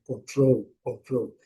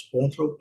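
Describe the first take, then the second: First: "control" said con-TROL, last syllable strong; correct English stress. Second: "control" said CON-trol, first syllable stressed; mistaken stress. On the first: Teacher modelling English for use abroad, stress-final demo. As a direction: stress the second syllable of "control", falling end. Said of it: "a tônica correta". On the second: Teacher warning they may not understand, misplaced-stress demo. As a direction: put the stress early on "control", Brazilian way. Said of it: "Se nós falarmos control". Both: Shown as a demonstration.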